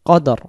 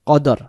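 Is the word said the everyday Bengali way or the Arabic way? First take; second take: everyday Bengali; everyday Bengali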